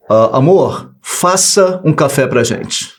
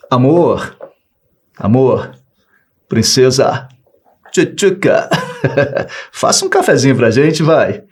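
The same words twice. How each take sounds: First: Slow, curt order to a wife. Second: Coaxing, sweet-talking a wife into coffee; butter her up with pet names; sweet pleading request. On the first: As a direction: make it a command, not a request. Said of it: "Olha o tom verbal que eu usei". (tom de ordem, seco e lento) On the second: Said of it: "pelo meu tom de voz, deixou de ser uma ordem. Passou a ser um pedido". (pedido carinhoso e manhoso) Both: Shown as a demonstration.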